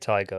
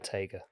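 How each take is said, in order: First: The name is pronounced the English way. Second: The name is pronounced the Welsh way. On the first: "you can either say tiger" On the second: "So Tega is how you say it in Welsh"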